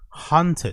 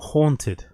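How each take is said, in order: First: The first vowel sounds like the vowel in 'hut'. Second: The first vowel sounds like the vowel in 'haul'. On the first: The speaker calls it wrong. "it's almost like he's saying hunted" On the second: The speaker calls it right. "not haunted"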